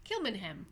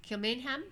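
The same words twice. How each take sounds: First: Kilmainham with squashed "mun" middle, falling end; reduced pronunciation, falling. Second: Kilmainham with a full "mayn", rising at the end; questioning full pronunciation. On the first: Answering her own test of the name, falling Kilmainham with reduced middle. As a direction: answer with Kilmainham as "KIL-mun-um", settling downward. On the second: Testing the jail's name, questioning Kilmainham with full MAIN. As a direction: ask Kilmainham as a question, middle sounded fully. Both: Shown as a demonstration.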